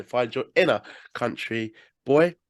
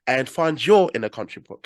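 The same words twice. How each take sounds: First: Slow it right down and stretch out "inner"; slower drawn-out retry. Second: Said in the usual way. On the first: Shown as a demonstration. Host redoing his sign-off line, slow and drawn out. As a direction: draw out each word of "Find your inner country boy". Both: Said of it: "Ah, let me try again".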